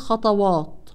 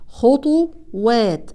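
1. الحركتان الأوليان مفتوحتان وثقيلتان. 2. الحركتان الأوليان مضمومتان، واللاحقتان خفيفتان. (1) "فالبعض يقوم بفتح هذه الحروف مع تفخيم الواو والألف ويقول خطوات، طبعا هذا خطأ" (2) "الخاء مضمومة ... الواو والألف بعدها حروف مرققة"

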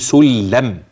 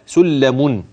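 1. الكلمة تنتهي بالميم دون أي صوت نون. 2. الكلمة تنتهي بصوت نون ملفوظ بوضوح. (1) "لو وقفت تقول سلم كده" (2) "أنا بوضح لك الحرف الذي تحول في فمك إلى ياء"

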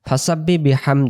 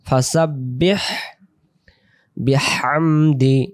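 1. প্রথম শব্দটি h ধ্বনি ছাড়া শেষ হয়। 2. প্রথম শব্দটি h ধ্বনি দিয়ে শেষ হয়। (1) "ফাসাব্বি বিহামদি এমন না" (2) "ফাসাব বা হাজির বিহ"

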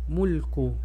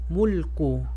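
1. La palabra termina en una u breve. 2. La palabra termina en una u breve.

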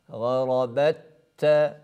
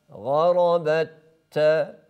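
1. İki t sesi birleşir ve tek, şeddeli bir t olur. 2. İki t sesi birleşir ve tek, şeddeli bir t olur.

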